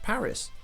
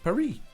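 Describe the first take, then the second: First: Paris is pronounced the English way. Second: Paris is pronounced the French way. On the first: "We pronounce Paris" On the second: "The French pronounce it"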